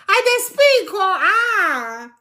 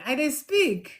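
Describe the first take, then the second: First: Excited boast. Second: Said in the usual way. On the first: Real, not acted. Boasting of speaking Pidgin.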